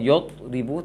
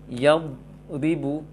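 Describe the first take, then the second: First: The first vowel is rounded, like 'o'. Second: The first vowel is open, like 'a'. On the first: The speaker calls it wrong. "bukan yod ribu" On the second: The speaker calls it right. "tapi yad bisa naik"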